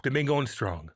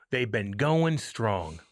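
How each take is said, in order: First: Said in the usual way. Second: "GOING strong" stretched out slowly; slow, weighty stress on "going strong"; drawn-out emphasis. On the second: Real, not acted. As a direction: linger on GOING, then land on strong. Line repeated slowly for emphasis.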